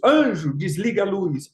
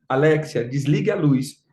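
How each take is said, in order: First: Ordem encenada a um anjo; paródia de comando. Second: Comando grave e controlado à Alexia; dê a ordem em tom baixo, como a um aparelho; comando à assistente. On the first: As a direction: chame o anjo com ênfase e dê a ordem. (mandando no anjo, em tom de paródia) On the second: Comando à assistente, contraste com anjo. (ordem simples à assistente de voz) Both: Retold or imitated.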